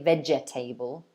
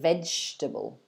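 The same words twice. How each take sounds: First: The word is said with four syllables. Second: The word is said with three syllables. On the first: The speaker calls it wrong. "Don't say vegetable" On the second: The speaker calls it right. "So three syllables"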